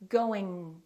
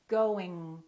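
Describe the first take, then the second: The two takes are said the same way.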